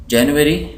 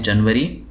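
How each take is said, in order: First: जनवरी said as JE-nu-we-ri, four syllables; English pronunciation. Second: जनवरी said as JAN-va-ri, short vowels; Urdu pronunciation. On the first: Teacher naming the month in English, जनवरी as JE-nu-we-ri. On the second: Teacher giving the Urdu month name, जनवरी as jan-va-ri. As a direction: say जनवरी the Urdu way, without 'nu'. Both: Shown as a demonstration. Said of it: "Urdu में इसको कहते हैं".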